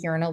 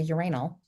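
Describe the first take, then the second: First: It is said the American way. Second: It is said the British way.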